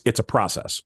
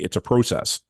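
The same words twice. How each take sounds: First: It is said in the speaker's usual accent. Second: It is said in a put-on Canadian accent.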